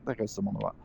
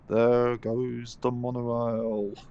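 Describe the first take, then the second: First: It is said in the speaker's ordinary voice. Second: It is said in an imitated character voice.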